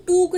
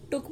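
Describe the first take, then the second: First: टूक with a long, drawn ऊ; wrong long vowel. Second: टुक with a short clipped ु; short vowel. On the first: Teacher showing shorthand class the wrong टूक, long ऊ. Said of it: "हम टूक नहीं बोलते". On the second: Teacher giving shorthand class the correct टुक, short ऊ. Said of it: "टुक बोलते हैं". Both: Shown as a demonstration.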